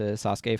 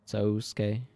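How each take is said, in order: First: The first vowel is short, not a long O. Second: The first vowel is a long O sound. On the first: "people are used to Sasuke from um, Naruto" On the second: "functionally extend as a long O"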